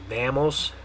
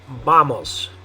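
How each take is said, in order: First: It is said with English vowel sounds. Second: It is said with Spanish vowel sounds. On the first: "if it were an English word, my guess is we'd probably say vamos" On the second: "the way you're going to say it in Spanish is vamos"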